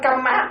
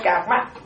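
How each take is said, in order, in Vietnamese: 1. Phụ âm ở giữa là âm m đọc đôi. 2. Phụ âm ở giữa là âm giống r. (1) "ta nói Bali" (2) "ta nói Sanskrit"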